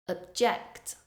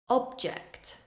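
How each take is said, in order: First: The stress is on the second syllable. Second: The stress is on the first syllable. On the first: It is used as a verb. "Then I will say the verb form, stressing the second syllable" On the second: It is used as a noun. "First, I will say the noun form, stressing the first syllable"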